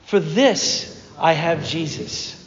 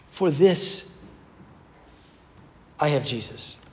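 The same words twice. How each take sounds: First: Slowed, spoken with the congregation; slow unison creed; slow shared mantra. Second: Lower, softer mantra; solemn mantra. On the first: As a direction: lead everyone in saying it together. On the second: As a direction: say it like a quiet creed. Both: Shown as a demonstration. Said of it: "could we just say that together".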